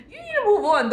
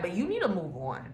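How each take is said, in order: First: "You need to move on" repeated much higher and louder; emphatic repeat. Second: Said in the usual way. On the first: Shown as a demonstration. Telling the listener to move on, repeated much higher and louder. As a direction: hammer the point home.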